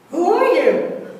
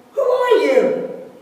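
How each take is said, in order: First: High, loud echo from far off; echoing reply. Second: High, loud, slow call to the mountain; curious yell. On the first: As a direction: answer back as the mountain's echo. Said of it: "He receives the answer". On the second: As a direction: shout it out across the valley. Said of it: "the son yells". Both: A narrator's reading.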